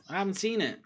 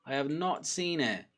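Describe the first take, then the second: First: Said in the usual way. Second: Slow, separate "have not"; emphatic repeat. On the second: Real, not acted. Insisting he missed the leaked kit, slow weight on "not".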